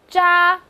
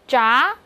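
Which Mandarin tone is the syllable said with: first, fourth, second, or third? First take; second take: first; second. First: The pitch stays high and level. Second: The pitch rises from mid to high.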